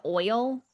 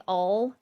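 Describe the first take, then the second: First: "oil," with a full OY glide; "oil," with both vowel sounds heard; standard pronunciation. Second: "ol" as one long vowel, AWL; oil said as "ol", no OY glide; Southern pronunciation. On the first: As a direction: say "oil," clearly as OY-ul. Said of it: "instead of". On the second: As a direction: draw "ol" out like all. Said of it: "some people in the South say". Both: Shown as a demonstration.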